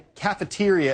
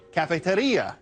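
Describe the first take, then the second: First: The word is said with English pronunciation. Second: The word is said with Spanish pronunciation. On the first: It is a lunchroom. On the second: It is a coffee shop.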